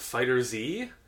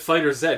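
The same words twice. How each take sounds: First: The letter Z is said the American way. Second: The letter Z is said the Canadian way.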